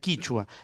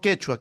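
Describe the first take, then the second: First: The first syllable has an i vowel. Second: The first syllable has an e vowel. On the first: This is the form used in Santiago del Estero. "por allá se dice, se pronuncia quichua" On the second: This is the form used in Peru. "quechua es en el Perú"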